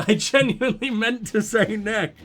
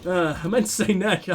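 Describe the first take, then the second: First: Laughing through the words. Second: Said in the usual way. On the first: Real, not acted. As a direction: giggle at your own slip.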